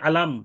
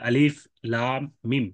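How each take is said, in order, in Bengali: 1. তিনটি হরফ মিলিয়ে এক শব্দ হিসেবে পড়া হয়। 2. প্রতিটি হরফ আলাদাভাবে তার পুরো নামে পড়া হয়। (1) "তিনটা অক্ষর মিলে আলাম এরকম উচ্চারণ করার সুযোগ নাই" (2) "এই হরফগুলোকে কেটে কেটে উচ্চারণ করতে হয়"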